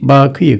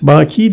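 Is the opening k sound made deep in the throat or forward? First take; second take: deep; forward. First: The first consonant is a deep, back k. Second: The first consonant is a forward, front k. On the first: It means eternal or long-lasting. "Baki gapladır" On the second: It means a man who weeps. "Baki derseniz kefle olur"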